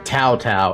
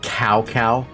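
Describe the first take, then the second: First: The name has a Chinese-like initial sound. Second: The name sounds like the English word cow. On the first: "as they want to call it here" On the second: "pronounced it as English as possible"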